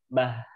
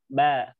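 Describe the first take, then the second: First: The syllable ends with a breathy h sound. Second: The syllable ends with a clean, sudden stop. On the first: The speaker calls it wrong. "itu ada huruf H-nya biasanya. ... jangan sampai bah" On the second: The speaker calls it right. "tapi langsung saja ba ... diberhentikan dengan dibentikan nafas dan juga suara"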